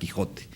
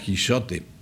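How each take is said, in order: First: The middle consonant is a throaty h sound. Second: The middle consonant is a soft sh sound. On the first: This is the later form of the word. "un cambio lingüístico que hubo cambió a la forma de pronunciar J" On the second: This is the older form of the word. "antes la J en español se pronunciaba sh, así como una che suave"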